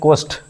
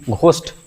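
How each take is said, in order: First: The first sound has no 'h' breath. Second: The first sound has an 'h' breath. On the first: The speaker calls it right. "एच silent होता है यहाँ पे" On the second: The speaker calls it wrong. "घोस्ट नहीं होता है"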